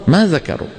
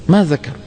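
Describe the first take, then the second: No difference in how they are said.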